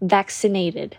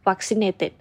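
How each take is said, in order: First: The first vowel is the 'cat' vowel. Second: The first vowel is not the 'cat' vowel. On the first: The speaker calls it right. "แต่จะอ่านว่า" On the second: The speaker calls it wrong. "เราจะไม่อ่านว่า"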